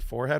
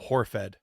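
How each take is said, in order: First: The word begins with an F sound. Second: The word begins with an H sound. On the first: The speaker calls it right. "they could never say forehead right" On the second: The speaker calls it wrong. "Always came out Horfed"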